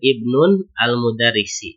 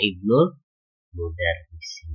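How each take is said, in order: First: The first word ends with an added n sound. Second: The first word links directly into the next word. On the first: The speaker calls it wrong. "ini ada tanwin, ini yang salahnya" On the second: The speaker calls it right. "harusnya ibnul mudarrisi"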